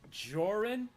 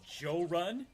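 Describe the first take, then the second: First: The name is said as one blended word. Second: The name is split into 'Joe' and 'Run'. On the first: This is the version the speaker uses. "I go with Joran" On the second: Some friends from the South say it this way. "he'll pronounce it Joe Run"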